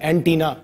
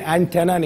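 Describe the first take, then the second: First: The middle vowel is a long 'ee' sound. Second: The middle vowel is a short 'e' sound. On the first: The speaker calls it right. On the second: The speaker calls it wrong. "एंटेना नहीं"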